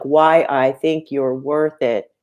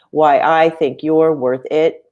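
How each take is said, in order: First: Slow, stressing "Why", "think" and "worth"; DUM-da beat, landing on "Why", "think", "worth"; trochaic stress. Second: Slow, stressing "I", "you're" and "it"; forced iambic stress. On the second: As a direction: force a da-DUM beat, landing on "I", "you're", "it". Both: Shown as a demonstration. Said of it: "So that's more like".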